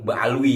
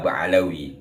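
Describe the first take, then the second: First: The name is said without a vowel between l and w. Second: The name is said with a vowel between l and w. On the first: The speaker calls it right. "Yang lebih pas menurut saya Bani Alwi, disingkat jadi Ba'alwi" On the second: The speaker calls it wrong. "tapi umum disebut atau dibaca Ba'alawi"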